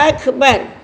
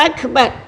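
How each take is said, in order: No difference in how they are said.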